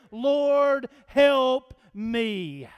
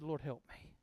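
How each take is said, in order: First: Loud, drawn-out prayer for help; emphatic plea. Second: Very soft, low prayer; hushed plea. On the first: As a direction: plead it out firmly, word by word. Acting out the woman's prayer. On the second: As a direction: pray it under your breath. Voicing the mother's humble prayer. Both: Retold or imitated.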